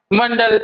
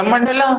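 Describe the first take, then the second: First: Said in the usual way. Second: "मंडला" said with an added long a at the end, rising; long final a. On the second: Shown as a demonstration. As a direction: stretch "मंडला" so the final a is clear. ("मंडला" में अंत का आ साफ़ बोलें) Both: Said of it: "तो मंडल से याद रखना".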